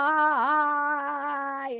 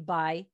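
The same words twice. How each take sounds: First: It is yelled loudly and held long. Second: It is said quietly in a flat monotone.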